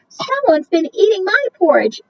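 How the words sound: It is said in a tiny, small voice.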